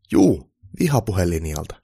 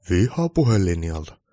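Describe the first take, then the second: First: Slow, loud "Juu", then "vihapuhelinjalta" as a statement; clarifying statement. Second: Slow, louder "Vihapuhelinjalta" echoed as a question. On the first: Applicant specifying his work to Santa, "vihapuhelinjalta" stated as clarification. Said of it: "hakija tarkensi". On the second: Santa querying the applicant's answer, "Vihapuhelinjalta" as questioning echo. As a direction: repeat "Vihapuhelinjalta" slowly as a doubting query. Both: A narrator's reading.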